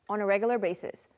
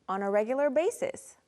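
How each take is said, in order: First: The phrase is said at a faster pace. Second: The phrase is said at a slower pace.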